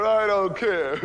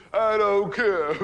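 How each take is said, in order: First: Said in the usual way. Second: Slow stubborn refusal. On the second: Retold or imitated. Groom refusing his family, stretched out slow and stubborn. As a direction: draw every word out, much slower.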